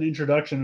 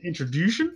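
First: Said in the usual way. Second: "introduction" garbled as "introdushun"; botched word. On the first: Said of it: "I was gonna say introduce and introduction". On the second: Shown as a demonstration. Podcaster repeating own slip, "introduction" botched as "introdushun". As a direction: say "introduction" with "-dushun" for the ending, questioning. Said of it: "and I say introduction?".

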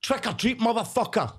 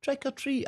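First: High mock-aggressive doorstep demand; cheeky high-pitched mock threat; brash kids of today. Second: High, sing-out innocent doorstep call; polite high-pitched kid; kids of old trick-or-treating. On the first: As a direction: demand it high and pushy, hammed-up. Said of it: "I think they go up and go". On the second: Retold or imitated. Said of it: "we used to go up and go".

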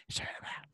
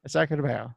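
First: Imitating a girl's hushed whisper. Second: Said in the usual way. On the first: Host mimicking how she said the cuss, whispering. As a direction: whisper it very softly, with no voice. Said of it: "she's whispering that cuss".

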